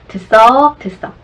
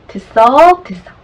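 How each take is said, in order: The two takes are said the same way.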